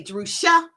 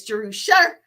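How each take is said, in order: First: "Jerusha" ending in an open "ah"; mispronounced Jerusha. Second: "Jerusha" ending in an r-coloured "sher"; correct Jerusha. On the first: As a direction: say "Jerusha" with "sha" at the end. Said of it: "people like say Jerusha". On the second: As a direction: say "Jerusha" like "juh-ROO-sher", with E R. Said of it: "but it's Jerusha". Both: Shown as a demonstration.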